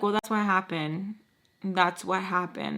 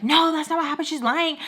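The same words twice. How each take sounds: First: Measured, even retold explanation; calm. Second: Loud, high-pitched acted objection; heated protest. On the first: Daughter explaining to angry father on a call, calm. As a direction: keep it calm and controlled. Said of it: "trying to talk to him calmly". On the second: Arguing back at father would escalate things, heated protest. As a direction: burst out in mock indignation. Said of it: "it's gonna escalate".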